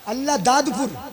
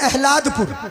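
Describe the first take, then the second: First: The name is said in full, each part clear. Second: The name is squeezed into one shorter word.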